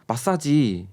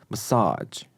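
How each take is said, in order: First: It is said with a Korean accent. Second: It is said with an American accent.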